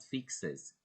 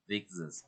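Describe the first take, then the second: First: "fixes" said slowly, fik-sis with a hissed ending; slow "fixes" with voiceless s; wrong pronunciation demo. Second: "fixes" ending in a buzzing z; "fixes" with a vibrating final sound; correct pronunciation demo. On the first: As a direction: show the mistake in "fixes", no buzz at the end. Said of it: "It's not fixes". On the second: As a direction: model "fixes" as fik-suhz, voiced at the end. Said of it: "as you pronounce it". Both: Shown as a demonstration.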